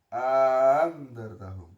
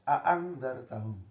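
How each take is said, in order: First: A long vowel precedes the softened glottal stop. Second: Both glottal stops are pronounced clearly. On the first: "bisa memasukkan alif bainal musahhalah" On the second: "hamzahnya dibaca jelas"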